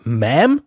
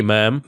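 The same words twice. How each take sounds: First: Ma'am? repeated as an indignant rising question; offended echo. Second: Southern ma'am. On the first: Narrator repeating the crew chief's word in outrage. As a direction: throw back "Ma'am?" in disbelief. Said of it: "This redneck tree murderer was about to get an earful". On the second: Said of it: "In a gruff southern drawl". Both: Acted.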